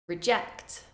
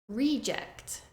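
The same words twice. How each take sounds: First: The stress is on the second syllable. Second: The stress is on the first syllable. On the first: It is a verb. "the verb form, stressing the second syllable" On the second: It is a noun. "the noun form, stressing the first syllable"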